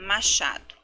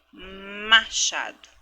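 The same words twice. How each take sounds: First: Said in the usual way. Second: Machado stretched very slowly; teacher's slow careful demo; slow syllable by syllable. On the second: Shown as a demonstration. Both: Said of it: "do inicial também do".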